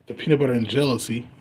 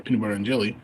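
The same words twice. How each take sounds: First: "jealousy" said by mistake in place of "jelly"; stumbling into "jealousy" in the strain name; slip of the tongue. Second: Said in the usual way. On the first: Real, not acted. Naming the strain to viewers, accidental "jealousy". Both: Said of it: "or peanut butter and jelly".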